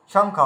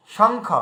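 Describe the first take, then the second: First: শঙ্খ said "shong-kh" with a clear ng; ng sound. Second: শঙ্খ said "shong-kh", the ng clear before kh; ng sound. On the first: Teacher repeating শঙ্খ for the viewers. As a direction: repeat শঙ্খ, ng then aspirated kh. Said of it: "এই দেখুন". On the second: Teacher answering her own question with a clear শঙ্খ. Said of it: "উয়ার উচ্চারণ আসলে কি দাঁড়াচ্ছে?". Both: Shown as a demonstration.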